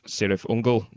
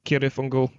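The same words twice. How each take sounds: First: The name begins with a soft S sound. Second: The name begins with a hard K sound. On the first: This is the band's own way of saying it. "they changed it to the soft C" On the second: This is the original author's way of saying it. "as Tolkien pronounced it"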